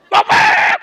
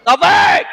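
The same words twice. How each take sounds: First: Much higher, loud angry yell of the name; louder call. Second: Loud call of the servant's name; boss calling again. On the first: Boss yells for the servant a third time, louder yell. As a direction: bellow it, losing patience. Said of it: "Lebih kencang". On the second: Boss calls servant a second time, loud call. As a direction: call him from across the house. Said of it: "Manggil lagi nggak bos saya?". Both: Acted.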